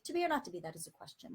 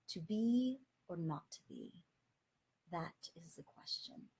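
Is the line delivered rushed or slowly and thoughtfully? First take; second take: rushed; thoughtful. First: It is rushed through mechanically. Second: It is delivered slowly and thoughtfully.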